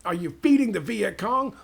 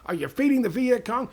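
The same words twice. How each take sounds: First: Higher, louder accusing yell; mock yelling soldier. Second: Pushed higher still, louder shout; mock yell, escalating. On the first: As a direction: bark the accusation at the villager. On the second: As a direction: crank it up the second time. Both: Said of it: "they start yelling at him".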